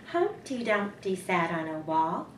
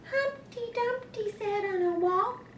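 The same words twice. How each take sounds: First: It is said in a Mama Bear voice. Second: It is said in a Baby Bear voice.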